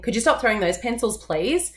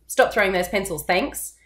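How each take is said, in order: First: Please lifted up at the end, pleading; pleading rise on please. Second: Thanks dropped flat like a full stop; firm directive. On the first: Teacher demoing a pleading request to a pencil thrower. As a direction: ask it like a plea with a rising please. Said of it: "the please, my voice went up. It sounded very pleading". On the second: Teacher demoing a firm directive to a pencil thrower. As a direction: state it firmly, no asking. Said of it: "That thanks is almost like a full stop". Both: Shown as a demonstration.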